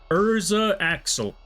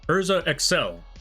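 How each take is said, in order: First: The second word begins with an 'ak' sound. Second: The second word begins with an 'ek' sound. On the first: The speaker calls it wrong. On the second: The speaker calls it right.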